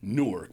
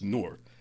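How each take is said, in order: First: Each syllable is said separately, as spelled. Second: It is said the local way, run together. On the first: "when you hyphenate it out, it's Newark" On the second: "the way that you guys pronounce it is Newark"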